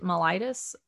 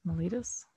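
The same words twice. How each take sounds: First: Mellitus with a long "eye" in the middle, muh-LIE-tus; trying a pronunciation. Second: Mellitus with an "ee" in the middle, muh-LEE-tus; trying another pronunciation. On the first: Reader unsure of the term asks Sabrina, mellitus said muh-LIE-tus. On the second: Reader unsure of the term tries Mellitus as muh-LEE-tus, questioning. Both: Shown as a demonstration. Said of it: "I don't know how to say it".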